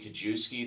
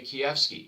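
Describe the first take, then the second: First: The surname is pronounced the English way. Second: The surname is pronounced the Polish way. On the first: "the anglicized version" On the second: "If my Polish mother, who was born in Poland, is in the room, I probably would say"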